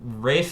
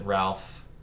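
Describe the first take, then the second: First: The name rhymes with safe and has no L. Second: The name is said with a clear L sound. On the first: This is the traditional, proper form of the name. "technically how you're supposed to pronounce it" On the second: This is how most people say the name. "everyone always pronounces it Ralph"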